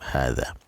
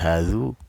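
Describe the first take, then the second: First: The word ends with an 'a' vowel. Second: The word ends with a 'u' vowel. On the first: The speaker calls it right. "Tetap hadza" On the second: The speaker calls it wrong. "Tidak menjadi hazu, ya tidak seperti itu"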